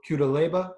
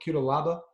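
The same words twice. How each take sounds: First: Cutelaba with "LAY-ba" at the end, rising; tentative pronunciation. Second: Cutelaba with "LAH-ba" at the end, rising; alternative pronunciation. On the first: Host unsure of a fighter's name, trying Cutelaba with "lay". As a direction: try Cutelaba as kyoo-de-LAY-ba, questioningly. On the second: Host correcting himself on a fighter's name, Cutelaba with "lah". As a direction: try Cutelaba as kyoo-de-LAH-ba, questioningly. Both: Shown as a demonstration. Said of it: "if that's how you pronounce it".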